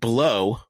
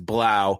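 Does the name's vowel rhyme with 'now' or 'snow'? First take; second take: snow; now. First: The vowel sounds like the one in 'snow'. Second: The vowel sounds like the one in 'now'.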